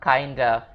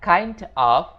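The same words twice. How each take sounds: First: The two words are linked together. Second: The two words are said separately.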